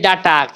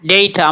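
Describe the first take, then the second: First: It is said in the common local Bengali way. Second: It is said in the standard English way. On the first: The speaker calls it wrong. "আমরা বলি ডাটা" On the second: The speaker calls it right. "শুদ্ধ উচ্চারণ"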